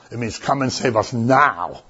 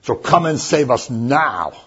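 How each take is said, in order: First: Said in the usual way. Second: Slow, weight on save us now; a slow emphatic cry for help; emphatic plea. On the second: Shown as a demonstration. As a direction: press each word, urgent. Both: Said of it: "makes it emphatic".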